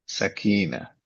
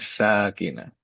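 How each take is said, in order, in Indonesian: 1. Vokal pertama pendek; yang kedua panjang. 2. Vokal pertama panjang; yang kedua pendek. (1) "Kadang-kadang saya suka dengar sakinah" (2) "Ingat saya panjang ya"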